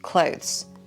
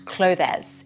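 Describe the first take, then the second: First: The E is silent, giving one syllable. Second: The E is sounded, giving two syllables. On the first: The speaker calls it right. "We don't pronounce the E" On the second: The speaker calls it wrong. "it's not clothes"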